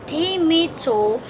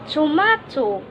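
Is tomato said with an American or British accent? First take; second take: American; British. First: It is said with an American accent. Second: It is said with a British accent. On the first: "as an American and a British English speaker" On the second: "as an American and a British English speaker"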